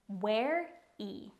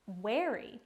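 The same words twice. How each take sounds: First: "Ware-y" slowly, in two separate beats; careful, divided "Ware-y" for learners; syllable by syllable. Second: Said in the usual way. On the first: Shown as a demonstration. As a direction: break "Ware-y" before the final y.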